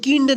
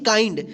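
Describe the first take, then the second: First: The vowel is a short i, as in 'kid'. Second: The vowel is an eye sound, as in 'fine'. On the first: The speaker calls it wrong. "इसको किंड नहीं पढ़ेंगे" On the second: The speaker calls it right. "क्या पढ़ेंगे, काइंड"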